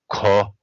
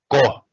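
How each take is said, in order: First: It is said softly and low, with breath. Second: It is said forcefully, with strong effort. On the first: "soft and low ko with aspiration" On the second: "we need a, a very large, how to say, effort"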